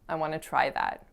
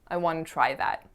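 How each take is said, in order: First: 'Want to' is blended into one reduced form. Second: The same.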